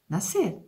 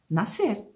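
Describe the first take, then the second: The two takes are said the same way.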